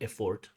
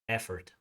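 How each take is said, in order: First: The word does not have the American pronunciation. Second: The word has the American pronunciation. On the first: The speaker calls it wrong. "but not effort" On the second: The speaker calls it right. "American pronunciation"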